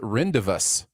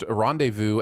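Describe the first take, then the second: First: The word is said a misread way. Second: The word is said the standard way.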